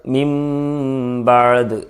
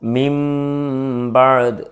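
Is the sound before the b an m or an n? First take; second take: m; m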